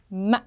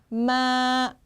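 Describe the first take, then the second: First: The pitch breaks sharply with a nasal sound. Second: The pitch stays level and long. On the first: "콧소리를 이용해서 급격하게 빡 꺾어줍니다" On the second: "길게 쭉 뻗어줍니다"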